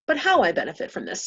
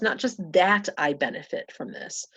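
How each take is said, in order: First: HOW punched higher in contrast; but HOW, raised and emphasized; stress on HOW. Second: THAT punched in contrast; not just THAT, with weight on it; stress on THAT. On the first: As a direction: lift and hit "how" as the real point. Corrects 'that' to 'how'. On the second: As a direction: lean on "that" to set up a contrast. Contrasts 'that' with 'how'. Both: Real, not acted.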